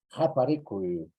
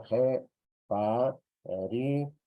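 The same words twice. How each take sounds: First: Said in the usual way. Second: "jeparicui" slowly broken into syllables; teacher's very slow model of "jeparicui"; syllable-by-syllable demo. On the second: Shown as a demonstration. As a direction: sound out "jeparicui" one drawn-out syllable at a time. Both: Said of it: "Y está el sonido".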